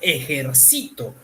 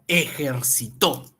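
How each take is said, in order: First: The stress falls on the third syllable. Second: The stress falls on the last syllable. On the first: It is an action in the first person. "puede funcionar como yo ejercito todos, todas las noches" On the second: It is an action in the third person. "Ya no es en primera persona. Él ejercitó toda la noche"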